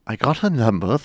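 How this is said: It is said in a British accent. "Can you do that in a British accent now?"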